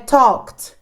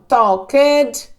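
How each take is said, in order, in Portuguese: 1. O final é um som de T curto e rápido. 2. O final é pronunciado de forma exagerada. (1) "como se fosse um T" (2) "Eu estou falando tão acentuado assim as coisas para vocês verem o final"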